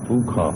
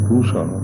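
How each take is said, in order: First: The middle consonant is a kh sound. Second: The middle consonant is a sh sound. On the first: This is the Yajurveda way of saying it. "Yajurveda में पूखा बोलते हैं" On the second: This is the Rigveda way of saying it. "Rigveda में पूषा बोलते हैं"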